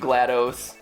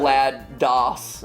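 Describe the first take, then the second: First: The ending is not said like MS-DOS. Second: The ending is said like 'DOS' in MS-DOS. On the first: "I like GLaDOS better" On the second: "as everyone sometimes corrects me. DOS as in M S DOS"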